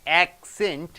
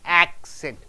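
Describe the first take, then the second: First: The stress is on the second syllable. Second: The stress is on the first syllable. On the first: It is used as a verb. "Suppose if it is a verb, to accent, you have to stress on accent" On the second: It is used as a noun. "You have to stress on ac"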